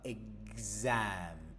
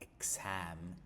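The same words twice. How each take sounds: First: The x sounds like gz. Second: The x sounds like ks. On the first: The speaker calls it right. "but exam" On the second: The speaker calls it wrong. "We don't say exam, x, x"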